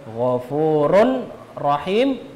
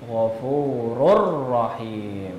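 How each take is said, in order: First: The n sound is pronounced before the r. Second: The n sound merges fully into the r.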